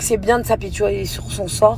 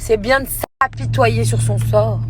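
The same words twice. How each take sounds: First: The words are slurred and loosely articulated. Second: The words are articulated carefully and clearly. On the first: The speaker calls it wrong. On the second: The speaker calls it right.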